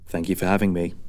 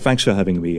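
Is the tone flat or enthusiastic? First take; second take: flat; enthusiastic. First: It is said flatly, without enthusiasm. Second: It is said with more enthusiasm.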